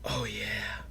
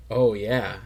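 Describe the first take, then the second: First: Breathy whispered oh, yeah, much softer; oh, yeah breathed out as a soft whisper. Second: Said in the usual way. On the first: Shown as a demonstration. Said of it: "in that breathy voice". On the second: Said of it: "so they just do it in that breathy voice".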